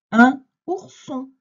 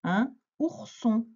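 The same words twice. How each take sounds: First: Loud, high, slow word presentation; emphatic dictation. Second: Slow, higher repeat at normal volume; measured dictation. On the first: Teacher announcing a word to a pupil, loud emphatic dictation. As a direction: call the new word out slowly and strongly. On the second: Teacher repeating a word for a pupil, measured dictation. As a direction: repeat it slowly without pushing the volume. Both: Shown as a demonstration.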